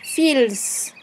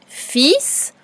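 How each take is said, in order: First: The word is said with an L sound. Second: The word is said without an L sound. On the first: It helps you remember the silent letter when writing. "tu vas dire fils, fils. Comme ça, tu es sûr de ne pas oublier le L" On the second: This is the normal way to say the word. "Il y a un L qu'on n'entend pas. On dit fils"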